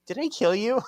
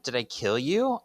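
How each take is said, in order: First: Did I kill you squeaked high in mockery; mocking squeak. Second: Said in the usual way. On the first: Paige mocking Prue's question, high mocking squeak. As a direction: parody the question, high and silly. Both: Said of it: "You know you're evil when".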